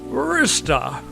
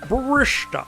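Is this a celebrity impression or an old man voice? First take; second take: old man; celebrity impression. First: It is said in a put-on old man's voice. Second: It is said as a put-on celebrity impression. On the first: "Hendry is old man voice" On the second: "No, Sean Connery"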